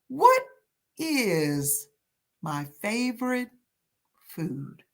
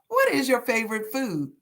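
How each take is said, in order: First: The question is said slowly and deliberately. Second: The question is said at a normal speed.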